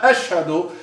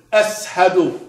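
First: Said in the usual way. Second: Ashhadu with a plain S sound in place of SH; hissed S replacing the SH in Ashhadu. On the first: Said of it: "not ashhadu". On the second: Retold or imitated. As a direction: say Ashhadu as "as-hadu". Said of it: "he would say".

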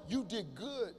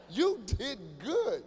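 First: Said in the usual way. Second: You did good drawn out very slowly; slow sarcastic praise; slow emphatic repeat. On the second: Shown as a demonstration. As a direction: stretch "You did good" as a mock compliment.

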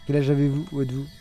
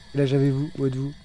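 No difference in how they are said.

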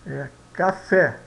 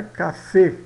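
First: Café with an open stressed final é, slow; right way. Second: Café with a closed final e, kafe; wrong stress. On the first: Teacher gives the correct version to students, slow and clear. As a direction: stretch café, landing open on the é. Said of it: "não é café, é café". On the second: Teacher shows students the wrong way to say it. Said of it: "não é café". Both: Shown as a demonstration.

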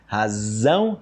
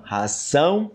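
First: Razão with buzzing z, hazão; voiced z in Razão. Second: Ração with a crisp unvoiced s, hasão; hissed s in ração. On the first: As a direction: stress the z in Razão. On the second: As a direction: hiss the s in ração. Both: Shown as a demonstration. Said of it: "percebe a diferença aí do z".

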